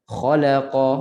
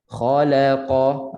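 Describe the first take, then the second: First: "khalaqa" with la cut to half a beat; hurried la. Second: "khalaqa" with kha, la and qa each one full beat; full equal beats. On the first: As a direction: rush the middle la of "khalaqa". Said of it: "bukan la itu jadi setengah ataupun laju". ("khalaqa" dengan la setengah harakat) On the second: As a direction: give the la in "khalaqa" as long as its neighbours. ("khalaqa" satu harakat setiap huruf) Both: Shown as a demonstration.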